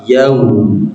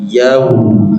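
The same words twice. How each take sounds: The two takes are said the same way.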